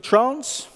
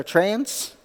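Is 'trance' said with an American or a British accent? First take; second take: British; American. First: The word is said with a British accent. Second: The word is said with an American accent.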